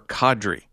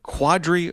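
First: The name begins with a plain k sound. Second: The name begins with a kw sound. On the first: The speaker calls it right. "It's Kadri" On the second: The speaker calls it wrong. "is it Quadri or Kadri?"

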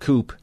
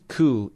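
First: The final p is pronounced. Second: The final p is silent. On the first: The speaker calls it wrong. "not coup" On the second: The speaker calls it right. "And it's coup"

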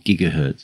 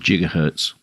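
First: It begins with a hard G sound. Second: It begins with a soft J-like G sound.

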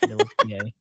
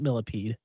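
First: The name is said with French pronunciation. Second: The name is said like English 'millipede'. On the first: The speaker calls it right. "It's Millepied because he is French" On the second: The speaker calls it wrong. "It's not Millipede"

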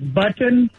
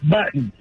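First: The T in the middle is clearly pronounced. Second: The T in the middle is dropped. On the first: "instead of like button" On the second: "she loses the T"

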